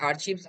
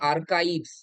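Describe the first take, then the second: First: The middle consonant is a 'ch' sound. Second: The middle consonant is a 'k' sound. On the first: The speaker calls it wrong. "Actually আর্চিভস আমরা বলতাম" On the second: The speaker calls it right. "এটার আসল উচ্চারণ হচ্ছে আর্কাইভস"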